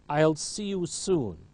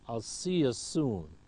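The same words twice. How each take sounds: First: Every word is said fully and clearly. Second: The words are shortened and run together.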